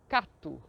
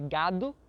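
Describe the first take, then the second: First: It begins with a voiceless K sound. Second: It begins with a voiced G sound. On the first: It imitates how Chinese speakers say it. "ao invés de gado, cato" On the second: It is the standard Portuguese pronunciation. "ao invés de gado"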